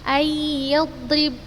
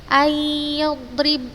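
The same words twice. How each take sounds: No difference in how they are said.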